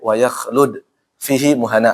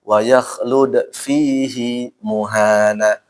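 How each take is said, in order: First: The vowel of hi is short. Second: The vowel of hi is held long. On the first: It follows the usual rule. "Harus dibaca pen pendek ya. ... aslinya" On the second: It is a special exception to the rule. "Cuma ini dibaca panjang"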